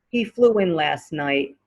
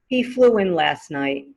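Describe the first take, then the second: Both takes have the same delivery.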